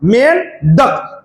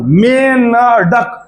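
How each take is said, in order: First: The 'dak' part follows directly without a vowel. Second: An extra vowel comes before the 'dak' part. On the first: "तो डक की आवाज निकलेगी" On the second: "मे के बाद बिंदी की ध्वनि निकल रही"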